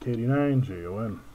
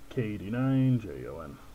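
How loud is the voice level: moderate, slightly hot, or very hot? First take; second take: slightly hot; moderate. First: The voice level is still somewhat too loud. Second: The voice level is moderate and not overdriven. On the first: "It's getting a little better" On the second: "I could live with that"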